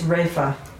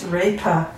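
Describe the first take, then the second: First: The middle consonant is an f sound. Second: The middle consonant is an aspirated p. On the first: This is the Hindi way of saying it. "The pronunciation for it is refa. ... it must be Hindi or something" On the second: This is the Sanskrit way of saying it. "because Sanskrit it's repa"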